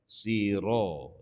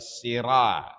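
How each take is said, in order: First: The r syllable is heavy, sounding like ro. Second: The r syllable is light with an a vowel. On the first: The speaker calls it right. "Dia kena baca siro. Dia tebal" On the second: The speaker calls it wrong. "Jangan baca sirah. Bukan sirah"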